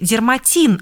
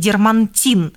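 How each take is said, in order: First: There is no n sound before the t. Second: An extra n sound comes before the t. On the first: The speaker calls it right. "запомните – дерматин" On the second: The speaker calls it wrong. "а не дермантин"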